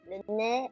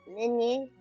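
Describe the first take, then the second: First: The name is said with French pronunciation. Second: The name is said with English pronunciation. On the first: "the French way is Lene" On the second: "the English is pronounced as Lenny"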